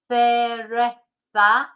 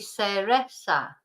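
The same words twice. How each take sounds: First: The c and z are said as th sounds. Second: The c and z are said as s sounds. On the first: This is how it is said in Spain. "You've got two ths in there if you're in Spain" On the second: This is how it is said in South America. "if you're in South America where they don't have the th"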